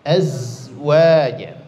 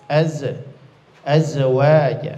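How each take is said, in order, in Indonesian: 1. Huruf z mengalir terus dengan lancar tanpa pantulan. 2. Huruf z dipotong pendek dengan pantulan. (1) "Karena sifatnya rokhawah, maka ngalir saja" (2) "itu tidak boleh ya"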